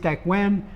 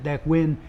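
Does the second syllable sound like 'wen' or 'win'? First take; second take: wen; win. First: The second syllable has an 'e' vowel. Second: The second syllable has a short 'i' vowel. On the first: The speaker calls it right. "It is Dek Wen" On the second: The speaker calls it wrong. "I mispronounced it Dek Win"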